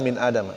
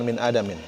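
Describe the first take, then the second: First: The last word ends with a plain 'a'. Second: The last word ends with 'in'. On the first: The speaker calls it right. "yang benar" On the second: The speaker calls it wrong.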